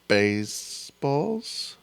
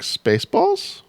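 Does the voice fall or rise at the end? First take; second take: fall; rise. First: The pitch falls at the end of the word. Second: The pitch rises at the end of the word.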